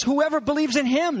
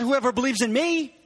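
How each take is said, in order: First: "him" leaned on at the end; high-pitched quote, landing firmly on "him"; stress on him. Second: "me" leaned on at the end; high-pitched contrast, landing on "me"; stress on me. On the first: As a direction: point up the word "him" as the key one. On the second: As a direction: point up the word "me" as the rejected alternative. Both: Shown as a demonstration. Contrasts third person with first person.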